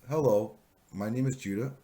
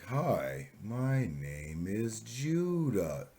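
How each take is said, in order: First: It is spoken at a moderate, slightly slowed pace. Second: It is spoken exaggeratedly, insultingly slowly.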